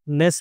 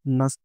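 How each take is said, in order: First: The vowel is a full, clear 'e' sound. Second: The vowel is a short, reduced 'uh' sound. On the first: The speaker calls it wrong. "Usually इसको हम मिस pronounce करते हैं नेस बोल के" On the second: The speaker calls it right. "जबकि ये होता क्या है? नस"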